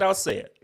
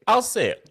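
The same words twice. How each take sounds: First: Said in the usual way. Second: I'll say it, pushed up louder; louder second take; louder repeat. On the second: Real, not acted. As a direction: commit to it the second time.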